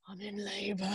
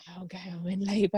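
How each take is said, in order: First: Much softer, strained repeat; barely able to speak. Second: Mumbled, strained attempt at talking; barely able to speak. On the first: Retold or imitated. Woman in labour repeating herself to the desk guy, hardly able to speak. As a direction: force it out faintly, with hardly any voice. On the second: Woman in labour telling the desk guy, barely able to speak. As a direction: struggle to get the words out. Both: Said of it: "like, couldn't speak".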